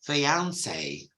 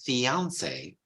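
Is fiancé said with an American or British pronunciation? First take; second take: British; British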